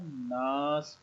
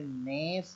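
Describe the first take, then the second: First: The vowel is an open 'aa' sound. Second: The vowel is a front 'e' sound. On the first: The speaker calls it right. "नास पढ़ना है" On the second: The speaker calls it wrong. "पुराने तरीके से नेस नहीं पढ़ना है"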